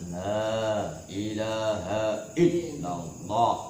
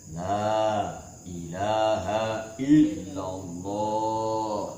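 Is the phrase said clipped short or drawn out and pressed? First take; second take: clipped short; drawn out. First: The phrase is said short and quick. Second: The phrase is drawn out and pressed down. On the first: The speaker calls it wrong. "Jangan la ilaha illallah pendek" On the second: The speaker calls it right. "tapi dihujamkan ke dalam qalbu"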